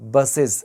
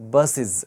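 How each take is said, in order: First: The plural ending is voiced, like iz. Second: The plural ending is voiced, like iz.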